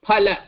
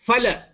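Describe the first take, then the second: First: The word begins with an aspirated p sound. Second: The word begins with an f sound. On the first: This is the Sanskrit pronunciation. "in Sanskritam, this Phala is pronounced as Phala" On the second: This is the Hindi pronunciation. "in Hindi it is Fa"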